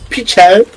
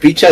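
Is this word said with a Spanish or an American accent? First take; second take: American; Spanish. First: It is said with an American-sounding accent. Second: It is said with a plain Spanish accent. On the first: "Juli se creía que era estadounidense" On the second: "En vez de decir picha"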